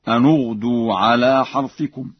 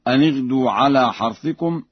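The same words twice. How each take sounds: First: The n of the first word takes a u vowel. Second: The n of the first word takes an i vowel.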